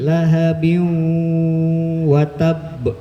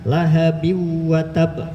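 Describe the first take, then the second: First: It is recited slowly, with the nasal held fully. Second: It is recited quickly, with the nasal cut short. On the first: The speaker calls it right. "Jadi abi lahabiu wa tab" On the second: The speaker calls it wrong. "jangan cepat-cepat, jangan lahabiu wa tab"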